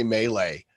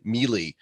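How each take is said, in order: First: Melee said MAY-lay; own pronunciation. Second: Melee said MEE-lee; imitated pronunciation. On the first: Shown as a demonstration. Giving his own way to the guest, melee pronounced MAY-lay. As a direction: say melee with two AY vowels. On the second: Quoting the guest's term, melee pronounced MEE-lee. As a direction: say melee to rhyme with freely. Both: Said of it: "everybody pronounces the terms different".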